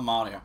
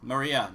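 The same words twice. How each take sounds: First: "Maria" said as MAH-ree-uh; mistaken pronunciation. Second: "Maria" said as muh-REE-uh; the usual name "Maria", muh-REE-uh; corrected pronunciation. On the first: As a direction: stress the first syllable of "Maria". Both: Shown as a demonstration. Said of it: "Why did I say Maria?".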